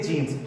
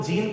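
First: जीन्स with the final s sounded; जीन्स said as the answer, s included; plural form. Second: जीन ending on n, no s; जीन without a plural ending; unused singular form. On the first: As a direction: close जीन्स on an ns. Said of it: "हमेशा अपन क्या बोलते हैं". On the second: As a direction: leave the s off जीन. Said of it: "जीन तो नहीं बोल सकते". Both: Shown as a demonstration.

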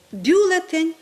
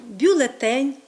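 First: Бюлетень with БЮ punched higher; stress on first syllable. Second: Бюлетень with ТЕНЬ stressed; stress on last syllable. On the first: Teacher demonstrating a common mistake, stress on БЮлетень. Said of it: "Ми досить часто з вами чуємо". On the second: Teacher giving the correct form, stress on бюлеТЕНЬ. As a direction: land the beat on бюлеТЕНЬ. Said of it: "має наголос тільки на останньому складі". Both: Shown as a demonstration.

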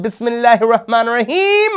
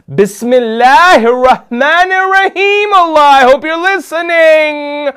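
First: High, eager acted invocation; hopeful invocation. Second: High, loud, hammed-up plea to heaven; desperate invocation. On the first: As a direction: recite it in rising anticipation. First hopeful invocation before pressing button. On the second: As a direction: cry it out so Allah surely hears. Desperate louder retry of the invocation.

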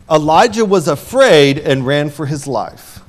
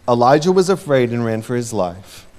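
First: Lively, pressing delivery; emphatic first reading; dramatic read. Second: Said in the usual way. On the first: Real, not acted. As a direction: tell it with drama. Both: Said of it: "repeated line".

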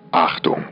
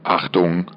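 Both takes have the same delivery.

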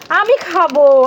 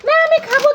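First: Said in the usual way. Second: Put-on squeaky high little-kid voice, insisting; high child figure. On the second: Toy child refusing mother, in a high squeaky voice. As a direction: pipe up high like a stubborn small child.

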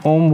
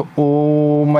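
First: Said in the usual way. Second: ओम held long and slow, the vowel stretched; ओम drawn out slowly, lingering on the o; prolonged Om. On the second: Shown as a demonstration. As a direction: stretch ओम out like a chant. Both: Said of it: "तो ओम ऐसे बोलते हैं ना".

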